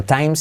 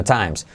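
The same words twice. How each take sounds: First: TIMES with an unaspirated Spanish T; wrong pronunciation. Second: TIMES with a puffed English T; corrected pronunciation. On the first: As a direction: say "times" with a dry, unpuffed T. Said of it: "No times". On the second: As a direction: release the T of TIMES with a burst of air. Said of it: "sino times". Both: Shown as a demonstration.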